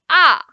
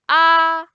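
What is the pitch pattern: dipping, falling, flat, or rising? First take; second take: falling; flat. First: The pitch falls sharply from high to low. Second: The pitch stays high and level. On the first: "the fourth tone we are going down" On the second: "the first one is flat. ... It's flat and high"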